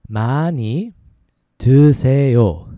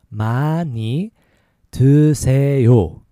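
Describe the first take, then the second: Both takes have the same delivery.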